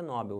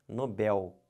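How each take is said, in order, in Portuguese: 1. A tônica está na primeira sílaba. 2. A tônica está na última sílaba. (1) "O certo não é Nobel" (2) "o certo é Nobel"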